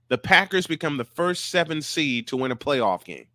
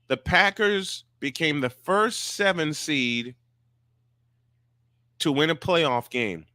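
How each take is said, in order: First: It is said at normal speed. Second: It is said slowly.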